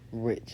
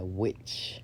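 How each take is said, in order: First: The word begins with an R sound. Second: The word begins with a W sound. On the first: The speaker calls it wrong. "I'm pronouncing it like with the aura" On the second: The speaker calls it right. "It's W I"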